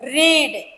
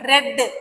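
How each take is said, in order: First: The vowel is long, sounding like 'reed'. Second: The vowel is short, sounding like 'red'. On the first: It is the present tense form. "இது spelling ஒண்ணுதான், ஆனா நம்மளுடைய உச்சரிப்பு, நம்மளுடைய pronunciation வேற" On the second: It is the past tense form. "ப்ரொனன்சியேஷன் வேற"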